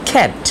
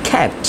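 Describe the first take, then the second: The two takes are said the same way.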